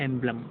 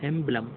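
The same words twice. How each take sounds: The two takes are said the same way.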